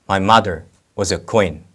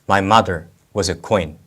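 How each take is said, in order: The two takes are said the same way.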